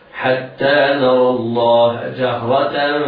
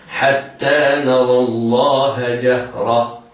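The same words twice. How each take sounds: First: The last word ends with a -tan sound. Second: The last word ends with an h sound. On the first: "نطقناها تاء منونة بالفتح" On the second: "إذا وقفنا عليها نقف عليها بالهاء هكذا"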